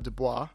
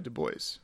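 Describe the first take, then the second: First: The name is pronounced the French way. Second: The name is pronounced the English way. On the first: This is how the name would be said in French. "French pronunciation would be Du Bois" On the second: This is how the bearer of the name said it. "but he went by Du Bois"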